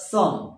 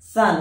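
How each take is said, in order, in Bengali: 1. এতে একটি গোল 'o' স্বরধ্বনি আছে, 'on' এর মতো। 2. এটি ঠিক 'sun' শব্দের মতো শোনায়। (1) "নট সন" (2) "সূর্যের সান, তার মতো উচ্চারণ হবে সান"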